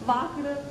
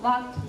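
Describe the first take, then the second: First: The word ends with a D sound. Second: The word ends with a T sound. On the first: The speaker calls it wrong. "వాక్డ్ టాక్డ్ అనొద్దు" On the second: The speaker calls it right. "టీ sound రావాలి, వాక్ అనాలి"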